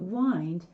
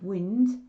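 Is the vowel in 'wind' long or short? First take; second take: long; short. First: The vowel is long, as in 'wine'. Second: The vowel is short, as in 'win'. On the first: It means to coil or turn. "wind could mean to coil or to turn" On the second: It means moving air. "wind could be hurricane or breeze"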